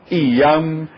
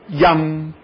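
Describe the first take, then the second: First: It begins with a separate, clipped i vowel. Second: It begins with a smooth, flowing y glide. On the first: The speaker calls it wrong. "lá pela quinquagésima vez já estão dizendo" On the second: The speaker calls it right. "as pessoas começam pronunciando direitinho"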